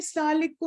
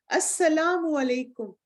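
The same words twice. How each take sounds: First: "السلام علیکم" clipped and quick, like "slam likum", syllables dropped; a lazy, slurred "السلام علیکم"; careless salaam. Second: "السلام علیکم" slow and full, "as-salaamu alaikum"; slow, proper "السلام علیکم" as a model; correct pronunciation. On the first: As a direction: mumble "السلام علیکم", swallowing its vowels. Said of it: "السلام علیکم کچھ نہیں ہوتا". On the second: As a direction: say "السلام علیکم" carefully, every syllable clear. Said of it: "تو پلیز اپنا سلام بھی درست کریں". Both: Shown as a demonstration.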